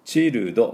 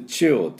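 First: チルド as three syllables chi-ru-do; wrong chi-ru-do reading of チルド; katakana mistake. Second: チルド as one-syllable "chil'd", L into D; English-style チルド with no added vowels; English child sound. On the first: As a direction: give チルド full Japanese vowels. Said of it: "チルドじゃありません". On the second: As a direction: run L straight into D in チルド. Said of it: "すぐLいって". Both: Shown as a demonstration.

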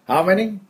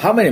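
First: "How many" high and friendly, as if smiling; softer, happy. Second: Said in the usual way. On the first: Shown as a demonstration. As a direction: ask "How many" softly and happily, with a smile. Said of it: "もうちょっと柔らかい方がいい". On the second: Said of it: "もうちょっと柔らかい方がいいですね".

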